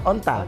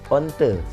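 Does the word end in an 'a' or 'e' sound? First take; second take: a sound; e sound. First: The word ends in an 'a' sound. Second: The word ends in an 'e' sound.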